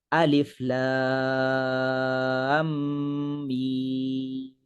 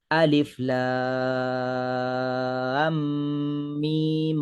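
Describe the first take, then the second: First: The final mim is stretched for a long time. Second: The final mim is held only briefly. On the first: "mim tu pula kadar harakatnya ialah enam harakat" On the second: "Dengan kadar dua harakat"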